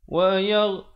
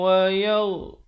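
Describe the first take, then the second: Both takes have the same delivery.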